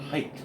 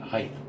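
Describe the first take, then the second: First: The word ends with a plain t sound. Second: The word ends with a th sound. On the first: The speaker calls it right. "Notice I said height" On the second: The speaker calls it wrong. "not height. I don't know why people say that. That's annoying to me"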